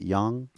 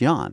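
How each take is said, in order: First: The word ends in an ng sound. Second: The word sounds like yawn, without ng. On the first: The speaker calls it wrong. "I always say it wrong" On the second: The speaker calls it right. "like a yawn"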